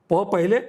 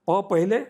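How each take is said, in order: No difference in how they are said.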